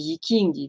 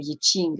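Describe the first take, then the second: First: The name is said the usual French way. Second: The name is said the original Chinese way. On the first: This is what people in France call it. "vous dites en France" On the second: This is the name in its original language. "mais c'est le Yiching en, en, en japonais, ... non, du chinois"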